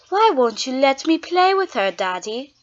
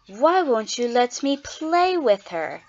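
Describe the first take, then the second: First: It is said in a put-on character voice. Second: It is said in the speaker's own voice.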